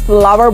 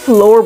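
First: It is said as two syllables, like flower. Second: It is said as one syllable, like floor. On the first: The speaker calls it right. "इसे फ्लावर बोलते हैं" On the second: The speaker calls it wrong. "बहुत सारे लोग इसे फ्लोर बोलते हैं"

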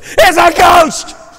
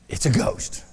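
First: It is shouted in fright. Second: It is said calmly, without alarm.

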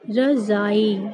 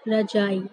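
First: The middle consonant is a 'z' sound. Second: The middle consonant is a 'j' sound. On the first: The speaker calls it right. "इसको हम सही तरीके से क्या बोलेंगे" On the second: The speaker calls it wrong. "आप लोग इसको क्या बोल देते हैं ... रजाई इसका गलत उच्चारण होता है"

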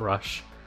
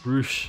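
First: The vowel is a short 'uh' sound. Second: The vowel is a long 'oo' sound. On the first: The speaker calls it wrong. "not Rush" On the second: The speaker calls it right. "apparently it's Roosh"

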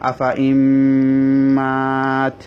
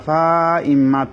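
First: The vowel after 'fa' is kept short. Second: The vowel after 'fa' is drawn out long. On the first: The speaker calls it right. "আলিফটা পড়া হবে না" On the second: The speaker calls it wrong. "আফা ইমাত পড়া হবে না"

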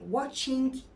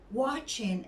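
First: The final g is clearly pronounced. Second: The final g is barely heard. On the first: The speaker calls it wrong. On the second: The speaker calls it right.

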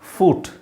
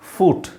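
First: The vowel is a long oo sound. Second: The vowel is a long oo sound.

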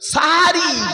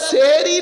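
First: The first vowel is an a sound. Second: The first vowel is an e sound. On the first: The speaker calls it right. "শব্দটা হলো সাহারি" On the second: The speaker calls it wrong. "শব্দটা সেহরি নয়"

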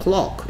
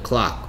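First: It is said with a British accent. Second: It is said with an American accent. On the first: "영국 애들은 Clock 이러고" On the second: "미국 애들은 Clock 이릅니다"

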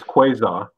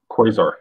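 First: The word is said in a British accent. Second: The word is said in an American accent. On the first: "The British pronunciation is" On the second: "the U.S. pronunciation is"

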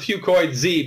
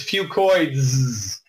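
First: The ending is spoken as a separate letter Z. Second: The ending is a plain z sound, one word. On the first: The speaker calls it wrong. "I call it Fucoid Z because that's easier to pronounce" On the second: The speaker calls it right. "the correct way to say it is Fucoids"

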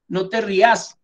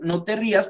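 First: Said with voseo stress on the last syllable. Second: Said with standard stress on the first syllable.

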